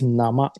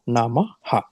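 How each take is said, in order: First: The word ends without an extra ha syllable. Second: The word ends with an extra ha syllable. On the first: The speaker calls it right. "it is Nama" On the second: The speaker calls it wrong. "not Namaha"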